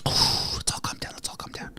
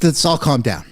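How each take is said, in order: First: Soft whispered self-calming, fading away. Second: Said in the usual way. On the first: Real, not acted. A streamer whispering to calm himself and his viewers down. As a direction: whisper it to settle yourself.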